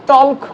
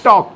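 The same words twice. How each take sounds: First: "টল্ক" with the l sounded; "টল্ক" said with audible l; wrong pronunciation. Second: "টক" with no l; silent l. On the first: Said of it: "আমরা টল্ক করি না". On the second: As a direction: say "টক" as "tawk". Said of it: "এল উচ্চারিত হচ্ছে না". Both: Shown as a demonstration.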